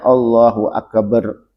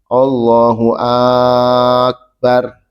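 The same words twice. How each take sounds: First: The b in akbar is doubled. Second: The first vowel of akbar is drawn out long. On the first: "juga tidak boleh ditasdid baknya. ... Nggak boleh" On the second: "Jangan dipanjangkan hamzahnya. ... Tak boleh"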